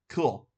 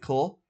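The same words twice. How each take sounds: First: The voice falls at the end. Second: The voice rises at the end.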